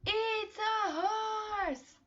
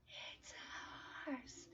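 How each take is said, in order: First: Much higher, slow and bright exclamation; excited model answer. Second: Whispered, far softer. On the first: Teacher revealing the horse to young learners. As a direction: announce it for kids to echo. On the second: Teacher whispering the answer back to the class. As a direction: whisper it like a secret. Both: Shown as a demonstration.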